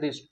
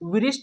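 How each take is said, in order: First: It starts directly with the r sound. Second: A w sound is heard before the r. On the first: The speaker calls it right. "क्योंकि रिस्ट में डब्ल्यू silent है" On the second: The speaker calls it wrong. "विरिस्ट नहीं पढ़ेंगे"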